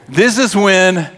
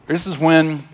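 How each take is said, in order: First: Slow, mannered preacher's delivery; mock preacher. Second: Said in the usual way. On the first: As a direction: start up a hammed-up pulpit voice. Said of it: "I do that preacher thing". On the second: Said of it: "this is where I do that".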